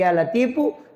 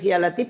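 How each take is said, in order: First: The word ends with an added u vowel. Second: The word ends on the final consonant. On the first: It softens the heart and also eases one's livelihood. "selain dilembutkan hati juga rezeki dimudahkan" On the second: It only softens the heart. "itu untuk kelembutan hati"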